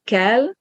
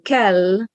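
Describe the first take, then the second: First: "kell" with a brief final l; short L. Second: Kell with drawn-out final l; long L. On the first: Teacher explains word for rise, short L. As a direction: end "kell" on a single, unheld l. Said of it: "with a short L". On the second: Teacher explains word for must, long L. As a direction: linger on the ll of kell. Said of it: "with a long L". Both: Shown as a demonstration.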